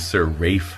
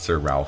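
First: The name is said the British way. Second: The name is said the American way. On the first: It sounds more aristocratic. The speaker calls it right. "it should probably be Sir Ralph Hamilton" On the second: It sounds less aristocratic. The speaker calls it wrong. "Not Sir Ralph"

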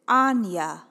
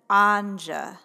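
First: The middle of the name sounds like 'ny'. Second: The middle of the name does not sound like 'ny'. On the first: This is how other people with the name say it. "they pronounce it Anya" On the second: This is how the speaker says her own name. "never Anja like me"

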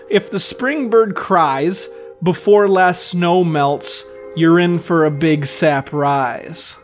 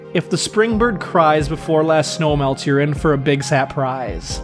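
First: The sentence is read at a slower pace. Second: The sentence is read at a faster pace. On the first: The words are heard as a literal sap rise. The speaker calls it wrong. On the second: The words run together to sound like surprise. The speaker calls it right.

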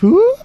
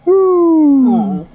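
First: The sound is light, bright and cheerful. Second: The sound is drawn out, low and mournful. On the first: The forest is ordinary and pleasant. "instead of" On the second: The forest has grown dark and unnerving. "more mournful sounds"

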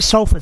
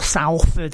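First: It is said the usual English way. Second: It is said the way Australians say it.

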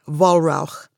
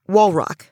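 First: The name is pronounced with German sounds. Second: The name ends like the English word bedrock. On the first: "if you pronounced it the German way, it would be" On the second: "But we say it like bedrock"

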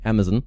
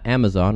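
First: It is said in a British accent. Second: It is said in an American accent.

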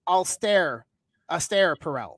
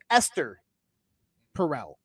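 First: The first name sounds like 'austere'. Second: The first name sounds like 'Esther'. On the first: The speaker calls it wrong. "not Esther Perel" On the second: The speaker calls it right. "the woman's name's Esther Perel"

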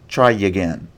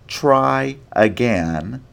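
First: The two words are joined by a glide. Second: The two words are kept separate.

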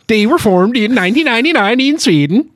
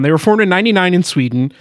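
First: It is said in a Swedish chef voice. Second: It is said in his normal voice.

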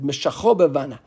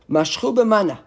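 First: The first word is said as meshacho. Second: The first word is said as mashchu. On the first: The speaker calls it right. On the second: The speaker calls it wrong.

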